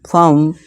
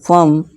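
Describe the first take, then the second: First: The vowel sounds like 'u' in 'hurt'. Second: The same.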